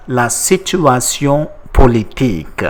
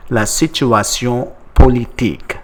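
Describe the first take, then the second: No difference in how they are said.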